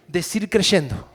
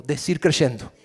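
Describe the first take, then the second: First: Decir creyendo, slow, stress on creyendo; slow emphatic repeat. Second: Decir creyendo, said firm and leaning on creyendo; leading a repeat. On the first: Pastor repeating the phrase slowly for the church. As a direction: drag it out so they follow. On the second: Pastor leading the church in repeating, firm. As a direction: give the phrase for them to repeat. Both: Shown as a demonstration. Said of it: "Repitan eso conmigo".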